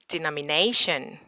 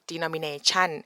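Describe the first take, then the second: First: The stress is on the fourth syllable, 'na'. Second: The last syllable is stressed with a high rise. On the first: The speaker calls it right. "the stress is not at the chun, it's at the nay" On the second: The speaker calls it wrong. "They like to put like a high rising tone at the last syllable"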